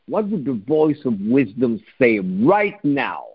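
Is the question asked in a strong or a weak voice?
strong. The question is asked firmly and with confidence. The asker expects a real answer. The speaker calls it right. "ask it openly and also strong"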